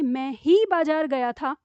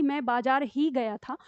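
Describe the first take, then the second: First: मैं ही stressed, said slowly. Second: बाजार ही stressed, said slowly. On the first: Teacher stressing मैं ही to show only I went. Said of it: "तो फिर वो मैं पर डालेगा". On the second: Teacher stressing बाजार ही to show the market only. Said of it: "तो बाजार पर बल डालेगा". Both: Shown as a demonstration.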